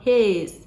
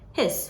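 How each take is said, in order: First: The vowel is drawn out long. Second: The vowel is clipped very short. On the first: The speaker calls it wrong. "so it's not his" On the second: The speaker calls it right. "very short"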